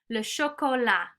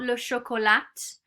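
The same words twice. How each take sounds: First: The final t is silent. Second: The final t is pronounced. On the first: The speaker calls it right. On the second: The speaker calls it wrong.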